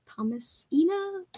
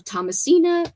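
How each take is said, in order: First: Thomasina drawn out slowly, higher, softer, as a question; sounding it out. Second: Said in the usual way. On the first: Shown as a demonstration. Checking how to say a title, slowly sounding out "Thomasina". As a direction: try out "Thomasina" syllable by syllable, unsure. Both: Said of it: "I think that's how you say it".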